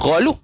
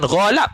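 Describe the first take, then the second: First: The second syllable has the vowel u. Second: The second syllable has the vowel a. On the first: "bukan ghalub" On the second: "bukan ghalab"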